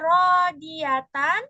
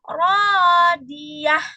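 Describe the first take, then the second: First: The word ends with a full tan ending. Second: The word ends with a short h sound. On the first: The reading continues without stopping. "yang tadinya harusnya rodiatan" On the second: The reading stops at this word. "Kalau diberhentikan, maka bacanya itu menjadi rodiah"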